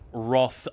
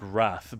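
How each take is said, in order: First: The vowel is a deeper, darker A sound. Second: The vowel is a brighter, flat A sound. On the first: "I tend to say Roth with a with a deeper A sound" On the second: "Not the brighter flat A sound"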